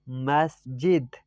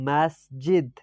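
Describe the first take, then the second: Both takes have the same delivery.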